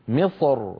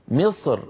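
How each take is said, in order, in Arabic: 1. الراء في آخر الكلمة مفخّمة ومملوءة الفم. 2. الراء في آخر الكلمة مرقّقة ونحيفة. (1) "يفخم الراء من أجل الصاد المستعلية قبلها فيقول مصر" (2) "وبعض العرب كان إذا وقف رقق الراء فيقول مصر مصر"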